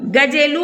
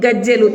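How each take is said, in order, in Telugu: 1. మధ్య j శబ్దం పొట్టిగా, ఒకేసారిగా ఉంటుంది. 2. మధ్య j శబ్దం పొడవుగా, రెండుసార్లుగా ఉంటుంది. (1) "ఒకవేళ జావత్తు లేకపోతే గా జే లు గజెలు అని పలుకుతాం" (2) "జావత్తిస్తే గజ్జెలు"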